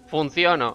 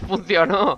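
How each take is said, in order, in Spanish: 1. El acento cae en la sílaba del medio. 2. El acento cae en la última sílaba. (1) "Parece como un error ahí en el doblaje" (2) "es funcionó"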